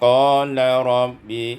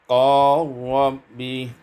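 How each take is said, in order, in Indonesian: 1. Bunyi l dibaca terpisah sebelum r. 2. Bunyi l melebur ke dalam r.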